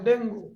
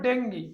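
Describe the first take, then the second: First: ডেঙ্গু read as written, deng-goo; the written form ডেঙ্গু, ending in oo; spelling pronunciation. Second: ডেঙ্গি with final ee, deng-gee; correct pronunciation. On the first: (বানান অনুযায়ী ডেঙ্গু) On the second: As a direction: say ডেঙ্গি, ending in ee. (সঠিক উচ্চারণ ডেঙ্গি) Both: Shown as a demonstration. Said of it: "উচ্চারণ হবে ডেঙ্গি".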